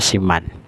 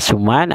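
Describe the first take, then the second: First: The first vowel is a front 'i' sound. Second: The first vowel is a rounded 'u' sound. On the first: "dibaca kasrah sin juga" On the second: "dibaca dhamma sin"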